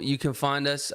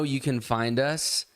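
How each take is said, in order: First: It is said in a put-on British accent. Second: It is said in a plain American accent.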